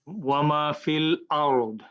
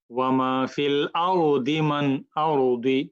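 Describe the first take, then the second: First: ওয়া মা ফিল আরদ slow, ending on a stopped heavy আরদ; stopping recitation. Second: আরদি read slowly with a light dal and i vowel, not stopping; Quranic recitation, continuing. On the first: Teacher reading the verse ending with a pause. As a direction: recite slowly and stop on আরদ. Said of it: "আমরা এভাবে পড়বো". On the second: Teacher showing students how আরদি joins when not stopping. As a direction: draw out আরদি smoothly, keep going into মান. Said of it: "না থামেন তাহলে এইভাবে পড়তে পারবেন". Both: Shown as a demonstration.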